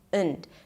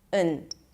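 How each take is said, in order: First: The word has a reduced schwa vowel. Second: The same.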